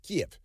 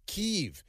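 First: "Kiev" said softly and higher as KEEV; hushed one-syllable "Kiev"; local pronunciation. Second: "Kyiv" said softly and higher, KEEV; prissy, hushed "Kyiv"; mock correct pronunciation. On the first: Retold or imitated. Showing how locals say "Kiev", softly. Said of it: "they pronounce it Kiev". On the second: Mocking the media's trendy "Kyiv" pronunciation. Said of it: "And, of course, Kyiv".

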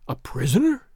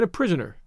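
First: Questioning echo with a rising end; incredulous. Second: Said in the usual way. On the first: A narrator's reading. Tarzan echoing the girl's word, incredulous. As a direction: repeat it in mild disbelief.

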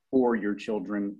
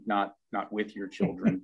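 First: "for" leaned on, slow and pointed; stress on for. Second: "with" leaned on in contrast; Tom's punchline, stressing "with". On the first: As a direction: punch "for" in "for your children". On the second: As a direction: hit "with" in "with your children". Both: Retold or imitated. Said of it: "Tom leans in and says".

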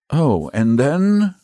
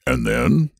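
First: High, slow echo of the question; stalling echo. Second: Short, raised prompting question. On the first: Saint George gropes for what follows, stalling. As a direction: stretch it out while searching for an answer. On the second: Dragon presses Saint George for more, prompting. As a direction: nudge them on with a rising end. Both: Acted.

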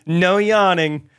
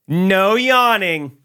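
First: Slow, high, lilting "No yawning"; the gate agent's sing-song ban on yawning, drawn out; mock agent. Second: High, loud, very slow "No yawning"; the chipper gate agent forbidding a yawn, high and slow; mock agent. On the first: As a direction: stretch it out like a sweet scolding. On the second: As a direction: draw it out as a sassy order.

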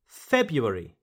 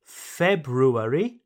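First: February as FEB-yoo-air-ee, falling; first R dropped. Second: Slow February as FEB-roo-air-ee, rising; both R's pronounced. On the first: Teacher offers second choice, February without the first R. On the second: Teacher offers first choice, February with both R's. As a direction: say February with the R after the B. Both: Shown as a demonstration. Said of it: "So you can say".

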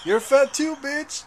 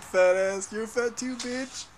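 First: High, loud mock yell; mock comeback. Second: High mock yell; quoting the fat kids video. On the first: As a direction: throw the insult back, pitched up. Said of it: "I'm just gonna be like". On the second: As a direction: bark it like the kid in the video.

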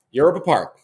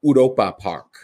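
First: Said in the usual way. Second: "Europa Park" with a soft "oo" opening and O-like vowels, no English "you"; German pronunciation. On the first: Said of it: "They say it like Euro". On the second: Shown as a demonstration. Host demonstrating the German name of the park to co-host, German pronunciation. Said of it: "the your part is very soft".

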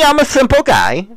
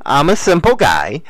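First: Much higher, squeaked out; squeaky high. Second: Said in the usual way. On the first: Shown as a demonstration. Vlogger squeaks his simple-guy line to viewers. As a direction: pitch it way up like a joke.

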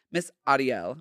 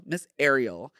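First: "Ariel" with open AH and tapped r; Ariel as AH-dee-el. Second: Said in the usual way. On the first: Shown as a demonstration. Name said two different ways.

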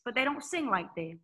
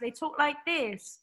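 First: Said in the usual way. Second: A quick, slightly higher and slower European accent; European accent demo. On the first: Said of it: "talk like this, but they don't sing like this". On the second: Shown as a demonstration. Guest mimicking how European artists talk, light European accent.

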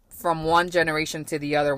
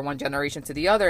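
First: Said in the usual way. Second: One generation to the other rattled off fast; fast repeat. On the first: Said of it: "repeated phrase". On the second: Real, not acted. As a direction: repeat it quickly as emphasis. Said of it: "repeated faster".

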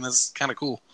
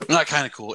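First: Said in the usual way. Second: "Not" punched louder before "kinda cool"; stress on Not. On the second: Shown as a demonstration. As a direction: hit "Not" hard, let "kinda cool" fall.

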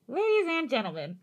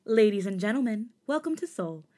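First: Put-on old-time newsreel announcer voice; booming vintage radio announcer; 1930s news announcer. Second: Soft-spoken flight attendant announcement; polite cabin announcement voice; airline hostess. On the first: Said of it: "From nineteen thirties news announcer". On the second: Pretend. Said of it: "to soft-spoken airline hostess".

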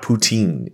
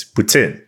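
First: Put-on "poutine" as "poo-TEEN", long ee; anglicised "poutine" with a plain T; wrong pronunciation. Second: "poutine" as "put-SIN", short i; French Canadian "put-SIN" for "poutine"; proper pronunciation. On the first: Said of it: "it's not poutine". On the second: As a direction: say "poutine" with an S slipped after the T. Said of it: "it's not poutine. It's poutine". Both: Shown as a demonstration.

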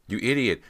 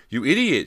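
First: High, loud angry shriek. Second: Very high, very loud outraged shriek; full shriek. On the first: Persia at Cody after the stabbing, angry shriek. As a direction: shriek the insult in outrage. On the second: Persia repeats her insult at Cody, escalating shriek. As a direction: shriek it harder, pitch right up. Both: A narrator's reading. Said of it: "she shrieked at Cody".

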